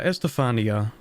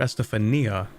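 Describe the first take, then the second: First: The stress falls on the 'fa' syllable. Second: The stress falls on the 'ni' syllable.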